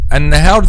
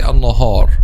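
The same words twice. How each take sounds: First: The long vowel is light and clear. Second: The long vowel is heavy and dark. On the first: The speaker calls it right. "this is the correct pronunciation" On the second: The speaker calls it wrong. "making alif heavy when it should be light"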